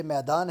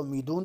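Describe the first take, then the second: First: Said in the usual way. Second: میدون ending in "-doon", not "-daan"; Iranian pronunciation. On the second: Shown as a demonstration. Teacher giving another example of Iranian speech, میدون said with "-doon". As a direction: say میدون with a long "oo" before the final n. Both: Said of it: "میدون تلفظ کرتے ہیں".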